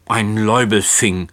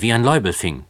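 First: Spiteful. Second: Said in the usual way. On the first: A narrator's reading. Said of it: "giftelte der alte Herr".

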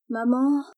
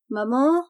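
First: Mildly doleful, higher-pitched call; a touch of plaintive child calling mother. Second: Higher, mildly impatient call with rising end; a touch of impatience, pitched up. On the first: Daughter calls her reading mother, mildly doleful. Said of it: "d'un air dolent". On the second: Daughter calls her silent mother once more, mildly impatient. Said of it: "d'un air impatienté". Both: A narrator's reading.

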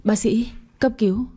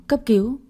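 First: Mildly panicked call with "cấp" lifted; a touch of breathless alarm on "cấp cứu". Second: "cấp" pushed higher, ending on a rise; more urgent repeat of "cấp cứu"; panicked, breathless. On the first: Maid calls the doctor for help, mildly panicked. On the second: Maid repeats the call to the doctor, more urgent. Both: A narrator's reading. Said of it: "hốt hoảng nói không ra hơi".

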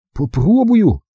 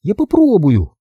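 First: Hesitant, high small voice; doubtful, barely willing; unsure. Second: Put-on determined girl. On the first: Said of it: "неуверенно отозвался Билли". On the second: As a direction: gamely try to stand. Girl tries to stand. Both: A narrator's reading.

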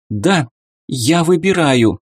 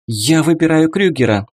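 First: Shaky, raised trembling voice. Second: Quick, rattled-off decision; rapid patter. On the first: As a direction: let the voice tremble with nerves. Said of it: "дрожащим голосом произнесла Ди". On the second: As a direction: rattle it off in one breath. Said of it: "скороговоркой подытожила Эмма". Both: A narrator's reading.

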